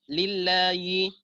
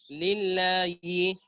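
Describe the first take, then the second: Both takes have the same delivery.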